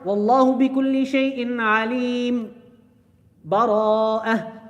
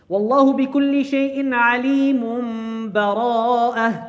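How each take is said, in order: First: A short pause comes before the last word, no breath. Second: The last two words are joined without a pause.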